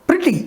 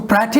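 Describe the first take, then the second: First: The first vowel sounds like the 'i' in bit. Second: The first vowel sounds like the 'e' in bet. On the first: The speaker calls it right. "इसका सही pronunciation क्या है" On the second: The speaker calls it wrong. "इसको प्रैटी नहीं पढ़ेंगे"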